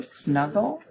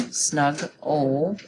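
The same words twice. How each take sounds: First: Said in the usual way. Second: "snug-ol" in two parts, a break after snug; split into syllables. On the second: Shown as a demonstration. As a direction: pause between "snug" and "ol". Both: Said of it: "I'm gonna break it between the two G's".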